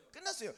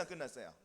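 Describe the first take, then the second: First: 끝났어요. lifted higher as the settled answer; confident reply 끝났어요. after the rhetorical question; firm answer. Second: 안 끝났어요? dropped low and quiet as a teasing rhetorical question; low coaxing 안 끝났어요? to the congregation. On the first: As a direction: answer your own question brightly with 끝났어요. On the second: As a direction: toss 안 끝났어요? off low, inviting the answer. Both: Shown as a demonstration.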